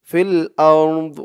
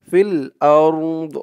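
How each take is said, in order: No difference in how they are said.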